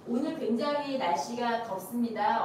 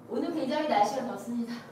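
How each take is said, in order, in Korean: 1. 문장 끝을 또렷하게 끝까지 발음합니다. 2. 문장 끝이 흐려서 잘 안 들립니다. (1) "어미를 정확히 발음한다는 게 이런 거죠" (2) "제가 어미를 한번 흐릿하게 해볼게요"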